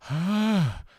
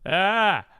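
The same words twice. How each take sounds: First: A weak, breathy tone with a gap between folds. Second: A firm, pressed tone with full vocal fold closure. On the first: "Second one" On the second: "the first one"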